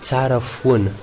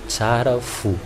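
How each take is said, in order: First: The phrase ends with an added nasal ending. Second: The phrase ends plainly without a nasal ending. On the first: This is the Tananarive form. "Pour Tananarive, Tsara Foun" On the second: This is the Diego form. "on utilise celui de Diego. Donc, Tsara fou"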